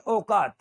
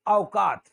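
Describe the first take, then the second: First: औकात as "okat"; pure "o" at the start of औकात; औकात with no "a" glide; wrong single vowel. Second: औकात as "a-okat"; gliding first vowel in औकात; correct double vowel. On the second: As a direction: open औकात on "a" into "o". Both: Shown as a demonstration. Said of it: "not औकात".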